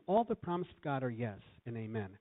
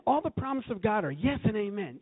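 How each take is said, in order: First: Said in the usual way. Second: High, fired-up declaration of faith; excited affirmation. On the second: Acted. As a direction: proclaim it with loud-hearted zeal, pitched up high. Acts out own excited affirmations.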